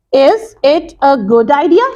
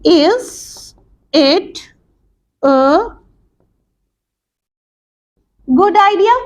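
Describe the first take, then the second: First: Said in the usual way. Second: "idea?" pulled up high at the end; drawn out, climbing into "idea?"; rising intonation. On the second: Shown as a demonstration. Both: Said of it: "in the form of yes or no questions".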